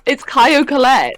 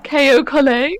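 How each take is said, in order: First: "Caio Collet" drawn out slowly and higher, KY-oh first; corrected pronunciation. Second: "K O Collet" echoed higher, as KAY-oh col-LAY; imitated mispronunciation. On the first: Shown as a demonstration. Co-host correcting the presenter's French-style name, slow emphatic correction. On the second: Co-host echoing the presenter's slip, mock mispronunciation. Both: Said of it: "I don't know why I said K O".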